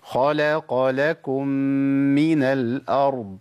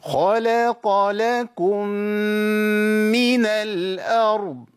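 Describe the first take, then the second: First: خلق لكم من الأرض at a steady, even pace; correct recitation. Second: خلق لكم من الأرض drawn out very slowly and high; wrong overlong reading. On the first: Teacher giving the correct reading of خلق لكم من الأرض. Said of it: "أظبط الأداء على القراءة الصحيحة". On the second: Teacher imitating students who overlengthen خلق لكم من. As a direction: stretch خلق لكم من into a long sung drag. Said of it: "في بعض الناس بيأديها كده". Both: Shown as a demonstration.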